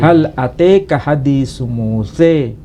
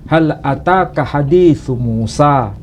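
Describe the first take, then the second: First: The name at the end ends in 'e'. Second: The name at the end ends in 'a'. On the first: This is an alternative reading. "ada juga salah satu qiraah lain menyebut dengan bacaan" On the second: This is the commonly used reading. "Itu yang biasa kita baca menurut qiraah Hafiz"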